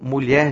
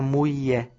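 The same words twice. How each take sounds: First: The word keeps its 'lh' sound. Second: The word drops its 'lh' sound. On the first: This is the standard form of the word. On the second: This is the rural form shaped by the Tupi language.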